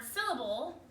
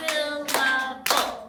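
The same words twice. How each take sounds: First: Said in the usual way. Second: "Syllable" loud and very slow, in three beats; clapped-out syllables. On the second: Shown as a demonstration. Teacher clapping out a word for the class, "Syllable" broken loudly into three. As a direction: chant "Syllable" beat by beat, each part drawn out. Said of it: "let's clap out the word syllable".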